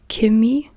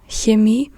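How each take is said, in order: First: The word begins with a hard k sound. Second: The word begins with a soft hissing ch. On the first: This is how southern Germans often say it. "with a K pronunciation" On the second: This is the standard German pronunciation. "instead of Chemie"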